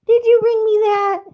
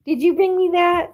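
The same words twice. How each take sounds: First: Very high, loud squealy question. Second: High, loud sing-song question. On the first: Owner delighted her dog brought the Kong, very high baby talk. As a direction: push the coo way up and louder. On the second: Owner asking her dog about the toy, high baby talk. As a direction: coo it up high at the pup. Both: Real, not acted.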